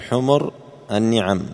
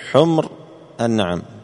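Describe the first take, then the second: First: The m takes a u vowel; n takes i. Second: The m has no vowel; n takes a. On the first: The speaker calls it wrong. "لا تضم الميم ولا تكسر النون، لا تقل حمر النعم" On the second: The speaker calls it right. "قل حمر النعم"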